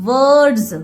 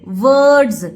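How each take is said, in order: The two takes are said the same way.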